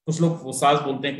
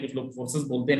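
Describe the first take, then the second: First: फोर्सेस said as "fosas", without the r; one way of saying the name. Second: फोर्सेस said as "forsəs", with a clear r; other way of saying the name. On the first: Presenter showing one way people say the brand name फोर्सेस, as fosas. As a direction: say फोर्सेस with no r sound, short a vowels: fosas. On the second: Presenter showing the other way people say the brand name फोर्सेस, with the r. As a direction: sound the r in फोर्सेस: for-səs. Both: Shown as a demonstration. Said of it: "नाम से फर्क नहीं पड़ता है".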